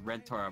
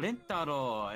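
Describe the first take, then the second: First: The name is said with an R sound. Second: The name is said with L sounds.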